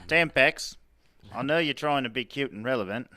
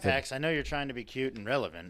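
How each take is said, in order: First: It is read in a mixed Australian-English accent. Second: It is read in the speaker's ordinary accent.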